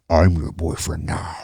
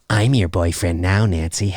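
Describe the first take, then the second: First: It is said in a deep, menacing distorted voice. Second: It is said in a plain, unintimidating voice.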